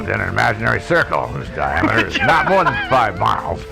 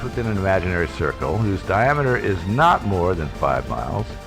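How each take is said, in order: First: A gruff, rough mountain-man voice reads it. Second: A flat, plain Midwestern accent reads it. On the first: "I'm going to do Gruff Mountain Man voice here" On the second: "Just a flat Midwestern accent"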